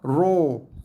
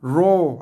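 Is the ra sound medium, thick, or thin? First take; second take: thick; thick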